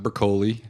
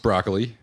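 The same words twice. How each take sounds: First: It sounds different from the vegetable's name. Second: It sounds like the vegetable's name. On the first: The speaker calls it wrong. "It's not broccoli" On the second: The speaker calls it right. "actually pronounced broccoli"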